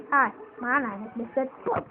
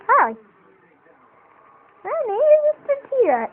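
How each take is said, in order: First: Said in the usual way. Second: Much higher, louder cartoon dinosaur voice; silly puppet voice. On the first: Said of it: "You just go, go on screen". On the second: Shown as a demonstration. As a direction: squeak it out as a goofy puppet. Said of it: "You don't want to do that".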